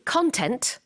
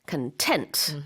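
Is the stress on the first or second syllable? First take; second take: first; second. First: The stress is on the first syllable. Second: The stress is on the second syllable. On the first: It means the material or contents of something. The speaker calls it wrong. "If you say content, then you're talking about something very, very different" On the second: It means pleased and satisfied. The speaker calls it right. "강세가 content. 뒤쪽에 있습니다"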